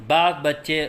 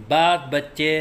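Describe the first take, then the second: Both takes have the same delivery.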